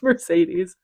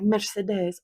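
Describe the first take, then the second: First: The name is said with an American pronunciation. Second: The name is said with a French pronunciation. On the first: This is how it would be read without hearing it. The speaker calls it wrong. "my dumb American way of saying it" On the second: This is how the name is supposed to sound. The speaker calls it right. "it sounds so good"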